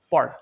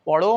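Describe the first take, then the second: First: পড় ending on the consonant, no o after it; silent final vowel. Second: পড়ো with an audible o at the end; wrong final vowel. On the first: Teacher shows the hasanta reading, পড় without final o. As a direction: cut পড় off at its last consonant. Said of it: "অ এর উচ্চারণ হয় না". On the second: Teacher shows the reading to avoid, পড়ো with final o. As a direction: sound out the final o in পড়ো, louder. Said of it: "অ এর উচ্চারণ না হয়". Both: Shown as a demonstration.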